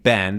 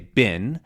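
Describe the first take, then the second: First: The vowel is the general American 'eh' sound. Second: The vowel is the Southern US 'ih' sound.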